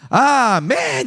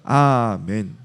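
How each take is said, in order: First: The word is said loudly and forcefully. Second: The word is said softly, without force. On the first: The speaker calls it right. "느낌표는 세게 읽으라는 거야" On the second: The speaker calls it wrong. "이게 아니라"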